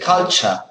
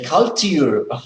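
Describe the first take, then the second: First: The middle has a ch sound. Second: The middle has a plain t sound. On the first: The speaker calls it right. "you say culture ... lo pronuncias como si fuera ch" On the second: The speaker calls it wrong. "You don't say culture"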